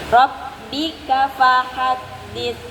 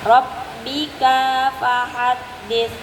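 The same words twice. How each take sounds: First: The vowel after the k is kept short. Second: The vowel after the k is drawn out long. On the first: The speaker calls it right. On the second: The speaker calls it wrong. "K-nya nggak boleh panjang gitu"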